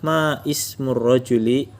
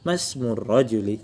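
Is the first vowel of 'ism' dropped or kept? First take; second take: kept; dropped. First: The vowel of 'ism' is kept as separate. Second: The vowel of 'ism' is dropped and words merge. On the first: "kalau nggak memakai kaidah hamzah wasl" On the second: "karena memakai jadinya masmur rajuli"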